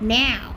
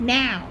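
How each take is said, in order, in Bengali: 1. শব্দটি টেনে লম্বা করে বলা হয়। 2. শব্দটি টেনে লম্বা করে বলা হয়।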